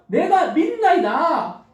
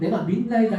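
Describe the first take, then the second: First: It is shouted loudly. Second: It is said in a small voice.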